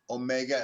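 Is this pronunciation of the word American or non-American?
American. It is said with an American pronunciation. This is how people in America say it. "as we say in America"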